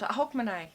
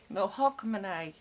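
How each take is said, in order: First: "Hogmanay" said "HOG-muh-nay", flat; "Hogmanay" with a plain English ending "nay"; "Hogmanay" plain English reading; first try. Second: "Hogmanay" ending "nigh", HOG-muh-NIGH; "Hogmanay" the Scottish way; corrected pronunciation. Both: Shown as a demonstration.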